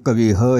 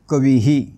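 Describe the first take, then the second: First: The visarga is said as a separate 'ha'. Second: The visarga echoes a short 'i' vowel. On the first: The speaker calls it wrong. "सगळे उच्चार चुकले" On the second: The speaker calls it right. "रस्वई म्हणून उच्चार होईल कवीही"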